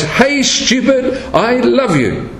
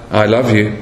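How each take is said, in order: First: High, drawn-out mock scream, no louder; Lucy. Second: Low, understated retold declaration. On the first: Lucy out of patience with her brother, mock scream. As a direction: imitate an exasperated scream, pitched high and slow. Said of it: "she screams out in a loud voice". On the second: Lucy's first try with her brother, low and understated. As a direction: say it low, at normal volume. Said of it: "she says to her brother".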